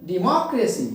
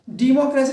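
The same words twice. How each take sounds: First: democracy as de-MOCK-racy, मॉक stressed; stress on middle syllable. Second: democracy with डे high and loud; wrong first-syllable stress. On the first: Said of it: "मॉक पे क्या कर देंगे". (Democracy में मॉक पर ज़ोर) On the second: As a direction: punch the opening डे of democracy. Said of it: "democracy नहीं". (Democracy में डे पर ज़ोर) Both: Shown as a demonstration.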